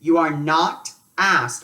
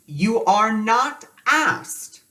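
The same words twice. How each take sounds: First: Said in the usual way. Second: "you are not asked" slowed right down, higher and louder; slow emphatic repeat. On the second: Shown as a demonstration. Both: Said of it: "okay, repeat".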